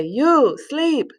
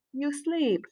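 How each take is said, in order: First: High, stretched YOU, then SLEEP as an order; command intonation. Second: Said in the usual way. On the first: Shown as a demonstration. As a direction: order it, stressing a long YOU before SLEEP. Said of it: "demand someone that they sleep". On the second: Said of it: "Instead of duermes".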